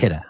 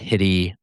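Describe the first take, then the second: First: The name is said as Hida. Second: The name is said as Hitty. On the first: The speaker calls it right. "but it's also Hida" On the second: The speaker calls it wrong. "Not Hitty"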